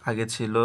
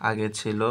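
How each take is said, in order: The two takes are said the same way.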